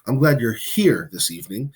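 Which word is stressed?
here. The word here carries the main stress. The person is physically present with the speaker. "You're glad that the person is here, literally with you"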